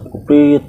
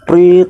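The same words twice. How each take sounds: First: Lighter whistle sound prit, higher; mock whistle blow, less force; quick whistle prit; whistle imitation. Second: Sharp high whistle blast, loud; loud mock whistle prit; whistle imitation. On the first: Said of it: "Gua bunyiin kan". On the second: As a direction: blow the whistle with your voice. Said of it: "gua bilang gitu".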